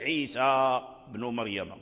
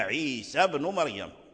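First: The vowel after the s is not short 'a'. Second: The s has a short 'a', running into b. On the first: The speaker calls it wrong. "ما قلناش عيسى بن مريم" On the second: The speaker calls it right. "فتحنا السين ثم دخلنا في الباء"

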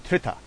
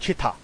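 First: It is said with a more standard English pronunciation. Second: It is said with a Hong Kong English pronunciation. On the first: The speaker calls it right. "讀正啲叫Twitter" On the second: The speaker calls it wrong. "這個係香港港產嘅讀音啦"

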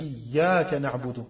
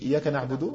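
First: The 'y' sound is held long and doubled. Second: The 'y' sound is short and single. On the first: You alone we worship. The speaker calls it right. "au lieu de dire" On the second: It refers to the sun. The speaker calls it wrong. "qui ne met pas la shadda"

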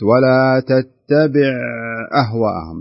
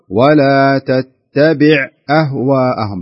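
First: The ain sound runs on into the next sound. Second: The ain sound ends cleanly with no carry-over. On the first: The speaker calls it wrong. "كأن الحرف صار تبع لما بعده" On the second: The speaker calls it right. "مكن العين خلاص تخلص من الحرف نهائيا"

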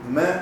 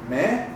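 First: The pitch stays level throughout. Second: The pitch rises upward. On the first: "que es derecho" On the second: "que es para arriba"

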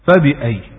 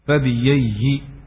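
First: The middle consonant is a glottal stop. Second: The middle consonant is a 'y' sound.

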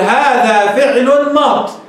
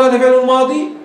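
First: The last word ends on a consonant without a vowel. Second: The last word ends on a long ee vowel. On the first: The speaker calls it right. "فالأفصح الوقف عليه رفعا وجرا في هذين الحالتين. بماذا؟ بالحذف، تحذف الياء التي في الآخر" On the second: The speaker calls it wrong. "بصير اوقف على الياء هيك"

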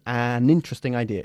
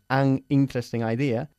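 First: The n is linked onto the next word. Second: The n is separated from the next word. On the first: The speaker calls it right. "vamos a imaginar que empiezan con una N" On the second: The speaker calls it wrong. "no facilita en absoluta la fluidez de la frase"

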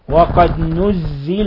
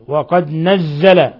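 First: The verb starts with a u vowel. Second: The verb starts with an a vowel. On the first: "بضم النون وكسر الزاي" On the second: "بفتح النون والزاي"

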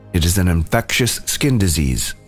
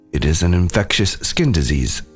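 The two takes are said the same way.

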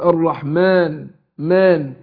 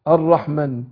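First: The vowel after the m is drawn out long. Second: The vowel after the m is short. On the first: The speaker calls it right. "بننطق الف بعد الميم" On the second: The speaker calls it wrong. "قرأتها على نفس الوضع المرسومة به، هقول الرحمن، لا"

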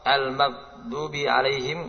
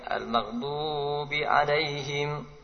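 First: The vowel after the d is cut short. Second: The vowel after the d is held very long. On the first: "Memendekkan dot. ... Ini sedikit" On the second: "memanjangkan dot lebih dari dua harokat. ... ini banyak"

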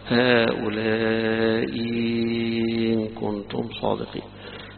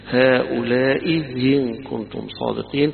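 First: The second hamza becomes a long drawn vowel. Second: The second hamza at the join is softened. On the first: "بإبدالها حرف مد مشبع" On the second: "بتسهيل الهمزة الثانية"

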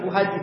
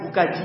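First: The second word begins with an h sound. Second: The second word begins with a k sound. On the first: "istilahnya bukan Bu Haji" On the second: "Bu Kaji gitu. Karena kesusahan ngomong hal"

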